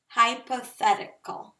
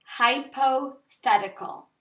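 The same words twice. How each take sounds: First: "Hypothetical" said clearly, all five syllables, falling at the end; repeat after me. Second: "hypothetical" said slowly, syllable by syllable, falling at the end; repeat after me. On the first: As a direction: model "Hypothetical" once more, clearly. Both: Shown as a demonstration. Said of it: "Say this word with me".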